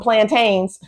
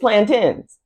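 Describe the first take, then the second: First: The word is said the way it is spelled. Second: The word is said differently from its spelling. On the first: The speaker calls it wrong. "We're not coming up here talking about" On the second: The speaker calls it right. "It is plantains"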